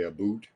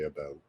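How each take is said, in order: First: "a boot" said as two words, a long oo like boot; a Canadian doing the "a boot" stereotype on himself; mock Canadian "a boot". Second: "about" as one word, ordinary ow sound; plain "about". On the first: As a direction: play up the joke "a boot" pronunciation. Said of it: "so we say". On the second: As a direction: say "about" the way Canadians really do. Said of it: "We say". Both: Shown as a demonstration.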